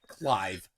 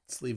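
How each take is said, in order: First: The name is said in its ordinary form, Clive. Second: The name is said like the word sleeve.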